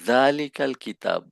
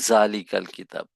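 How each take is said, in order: First: The first sound is a soft 'th' sound. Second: The first sound is a 'j' sound. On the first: The speaker calls it right. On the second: The speaker calls it wrong.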